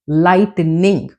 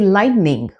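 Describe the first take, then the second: First: The T sound is clearly pronounced. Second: The T sound is dropped. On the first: The speaker calls it wrong. "We do not say" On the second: The speaker calls it right. "We say"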